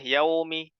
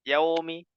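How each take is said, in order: No difference in how they are said.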